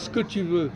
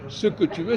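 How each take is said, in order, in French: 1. 'Ce que' se réduit à une seule syllabe courte. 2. Les deux syllabes de 'ce que' se disent en entier. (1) "tu supprimes le là, ... tu fais un S avec apostrophe" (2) "au lieu de dire ce que tu veux"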